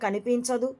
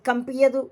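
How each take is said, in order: First: The word is said with every sound clearly pronounced. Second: The word is said with sounds garbled and dropped. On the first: It is the intended normal word. The speaker calls it right. "అంటే కనిపించదు" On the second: It mimics someone's speech defect. The speaker calls it wrong. "ఆ నత్తి మందడానికి కంపియదు"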